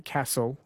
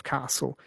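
First: "Castle" said as KASS-ul; short-A Castle. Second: "Castle" said as KAH-sul; long-A Castle. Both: Shown as a demonstration. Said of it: "want to say Castle instead of Castle".

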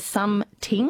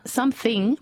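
First: Something said as SUM-TING; mispronounced "th". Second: Said in the usual way. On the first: Shown as a demonstration. Host quoting listener's pet hate, something as "sum-ting". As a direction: say something with a hard T for th. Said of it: "pronounced as something". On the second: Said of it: "something pronounced as something".

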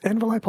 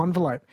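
First: "Envelope" starting with EN; EN pronunciation. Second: "envelope" starting like "on"; ON pronunciation. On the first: Host judging the two forms, EN-velope. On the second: Host judging the two forms, ON-velope. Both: Shown as a demonstration. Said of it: "No one says on".

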